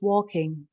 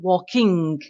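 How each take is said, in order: First: The final G is soft and barely heard. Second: The final G is clearly and hard pronounced. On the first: The speaker calls it right. "just try and make that last G soft. It's just walking" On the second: The speaker calls it wrong. "not walking"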